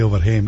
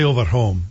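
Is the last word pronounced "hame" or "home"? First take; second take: hame; home. First: Home is said with an 'ay' vowel, like dad. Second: Home is said with an open 'o' vowel, like mom.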